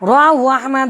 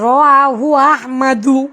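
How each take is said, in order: First: The name ends without a final vowel sound. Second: The name ends with a final u vowel. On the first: The speaker calls it wrong. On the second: The speaker calls it right.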